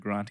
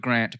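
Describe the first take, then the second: First: The vowel sounds like the one in 'aunt'. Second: The vowel sounds like the one in 'ant'. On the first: This is the host's habitual way of saying it. "I may slip into Grant occasionally" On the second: This is how the guest says his own name. "I'll try for Grant"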